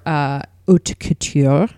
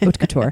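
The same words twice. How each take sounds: First: It is said in a showy, affected way. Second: It is said in a plain, unaffected way. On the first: "which I will just not be as pretentious as that" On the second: "just refer to it as"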